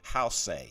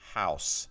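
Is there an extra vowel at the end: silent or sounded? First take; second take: sounded; silent. First: An extra final vowel sound is pronounced. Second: The word ends without an extra vowel. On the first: The speaker calls it wrong. "you don't say house" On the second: The speaker calls it right. "it's house"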